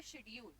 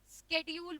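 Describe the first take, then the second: First: शेड्यूल said "shedule" with a soft sh sound; British pronunciation. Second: शेड्यूल said "skedule" with a hard sk sound; American pronunciation. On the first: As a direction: say शेड्यूल as shed-yool. (शेड्यूल को "शेड्यूल" श से बोलें) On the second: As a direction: say शेड्यूल as skeh-dyool. (शेड्यूल को "स्केड्यूल" बोलें) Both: Shown as a demonstration. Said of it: "एक person इसको इस तरीके से बोल रहा है".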